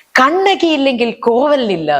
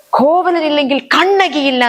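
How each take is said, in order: First: Slow, high, grieving wail with the names swapped; the slipped line, still slow and mournful; emotional stage line. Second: Much higher, slow, grieving wail; emotional stage line. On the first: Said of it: "ഞാൻ പെട്ടെന്ന് പറഞ്ഞു". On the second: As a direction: Kannaki mourning Kovalan, slow and high. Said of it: "വികാരഭരിതയായിട്ട് ഞാൻ പറയണം". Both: Retold or imitated.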